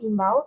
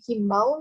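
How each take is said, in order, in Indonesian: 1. Kata ini langsung diawali vokal. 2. Kata ini diawali bunyi h. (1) "semestinya itu imbau" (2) "yang dilafalkan himbau"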